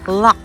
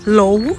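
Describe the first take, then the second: First: The word ends in a consonant sound. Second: The word ends in a vowel sound. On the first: The speaker calls it right. "it pronounces Lak" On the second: The speaker calls it wrong. "Kung basahin natin"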